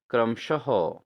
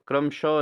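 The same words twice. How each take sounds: First: क्रमशः with an audible "-ha" ending; correct pronunciation. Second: क्रमशः ending in plain "sho"; wrong pronunciation. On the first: Teacher corrects students, क्रमशः with h sounded. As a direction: breathe out the end, क्रमशः as "kram-sha-ho". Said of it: "क्रमशः नहीं होता". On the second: Teacher shows students the error, क्रमशः as "kramsho". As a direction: drop the final h of क्रमशः, "kramsho". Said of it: "नहीं होता". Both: Shown as a demonstration.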